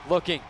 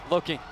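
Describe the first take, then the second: No difference in how they are said.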